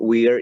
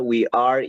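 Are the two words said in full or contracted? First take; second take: contracted; full. First: The words merge into one short syllable. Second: Both words are said separately and in full. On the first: "de la manera contraída o con contracción" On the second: "el pronombre más el verbo to be"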